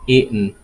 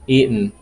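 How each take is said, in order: First: The middle T is silent. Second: The same.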